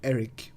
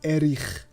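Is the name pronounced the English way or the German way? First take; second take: English; German. First: The name is pronounced with English sounds. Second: The name is pronounced with German sounds. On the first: The speaker calls it wrong. "he's still pronouncing it English in Eric" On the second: The speaker calls it right. "so it's Erich"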